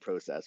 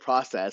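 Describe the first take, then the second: First: It is said the Canadian way. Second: It is said the American way. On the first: "process for Canada" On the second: "process for America"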